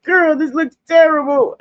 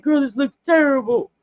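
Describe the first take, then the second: First: High, loud cry of dismay at her makeup; dismayed complaint. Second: Higher retold whine about the makeup; dismayed complaint. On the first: Retold or imitated. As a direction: whine that it looks awful. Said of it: "I used to be like". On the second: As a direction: complain that it looks bad. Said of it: "I'm like".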